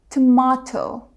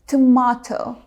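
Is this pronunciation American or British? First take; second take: British; British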